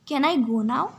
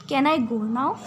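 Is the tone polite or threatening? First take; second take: polite; polite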